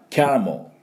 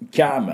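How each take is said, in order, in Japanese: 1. mとlの間に短い母音が入る。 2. mからそのままlにつながる。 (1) "ちょっとえって入れる人" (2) "M ダイレクトにつなぐ人"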